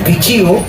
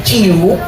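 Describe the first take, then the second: The two takes are said the same way.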